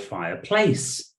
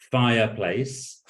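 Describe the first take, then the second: First: The stress is on the second syllable. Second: The stress is on the first syllable. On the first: "the second syllable" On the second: "the first syllable"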